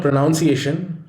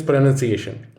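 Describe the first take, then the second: First: "pronunciation" as pro-NOUN-see-ay-shun; "pronunciation" with the noun sound; wrong pronunciation. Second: "pronunciation" as pro-NUN-see-ay-shun; "pronunciation" with nun, not noun; right pronunciation. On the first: Teacher showing students the wrong way, pro-NOUN-ciation. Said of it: "It is not pronunciation". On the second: Teacher showing students the right way, pro-NUN-ciation. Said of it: "rather, it is pronunciation". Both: Shown as a demonstration.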